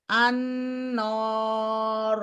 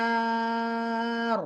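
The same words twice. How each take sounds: First: আন-নর with a heavy, dark নর; heavy noon mistake. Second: আন-নার with a light, clear নার; light correct noon. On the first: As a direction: darken the নর in আন-নর. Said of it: "নর হবে না". (ভারী করে ভুল উচ্চারণ) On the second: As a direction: keep নার in আন-নার light and open. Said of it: "হ্যাঁ". (হালকা করে সঠিক উচ্চারণ) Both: Shown as a demonstration.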